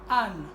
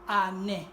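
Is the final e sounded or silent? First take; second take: silent; sounded. First: The final e is silent, one syllable. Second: The final e is sounded, two syllables. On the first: This is the French reading. "normalement en français on dit Anne" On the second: This is the Turkish reading. "Dans la langue turque, on va dire Anne"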